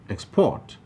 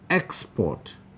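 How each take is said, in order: First: The stress is on the second syllable. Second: The stress is on the first syllable. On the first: The word is used as a verb. "We are using this word now as a verb" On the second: The word is used as a noun. "we are using that word as a noun"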